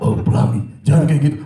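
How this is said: The voice sounds heavy and scary. "itu terlalu serem"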